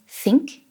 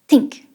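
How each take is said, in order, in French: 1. Il commence par un son th. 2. Il commence par un son t. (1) "instead of saying think" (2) "you can try think"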